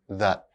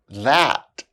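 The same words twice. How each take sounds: First: The word is reduced with a weak vowel. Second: The word is said fully with its full vowel. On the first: "then their weak forms" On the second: "I'll say the strong forms of the words first"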